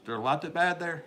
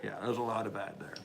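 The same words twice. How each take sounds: First: Rising, questioning read of "There's a lot of bad there?"; echoing a viewer's question before answering. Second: Said in the usual way. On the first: Real, not acted. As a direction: read it out as a chat question, pitch going up.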